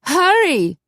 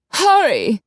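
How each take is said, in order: First: High, loud urgent cry; urgent call. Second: Raised, urgent call through the door. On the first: Corky urging her lover into the room, high urgent call. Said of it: "Corky opened the door". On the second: Urging her partner outside the door to hurry, loud urgent call. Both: Acted. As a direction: hurry them along, pitched up.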